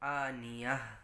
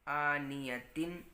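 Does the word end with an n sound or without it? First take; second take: without n; with n. First: The word ends cut short in -yah, no n. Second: The word ends in -tin with a final n. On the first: The reader pauses at the end of the verse. "हम पढ़ेंगे आनियह" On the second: The reading continues without a pause. "आनियतिन के बजाय"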